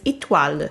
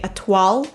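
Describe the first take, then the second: First: It is said the French way, with a faint final vowel. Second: It is said the simpler English-speaker way. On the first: The speaker calls it right. "if you want to pronounce it correctly in French" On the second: The speaker calls it wrong. "If you're a native English speaker, it's probably fine if you say étoile"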